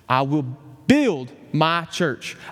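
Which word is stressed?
build. The word "build" carries the stress.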